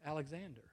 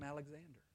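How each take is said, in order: First: Softly imitating a timid soldier; a small, understated whimper of a reply; mildly whimpery. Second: Imitating a meek soldier, barely audible; timid, very quiet. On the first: Timid soldier answering Alexander the Great, mildly whimpery. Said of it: "And very whimpery-like". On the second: Timid soldier answers Alexander the Great, very quietly. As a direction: shrink the answer to a tiny, passive murmur. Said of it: "very passively and timidly, even more quiet this time".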